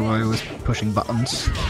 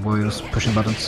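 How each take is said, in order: First: Buttons is said imitating another person's pronunciation. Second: Buttons is said in the speaker's usual pronunciation.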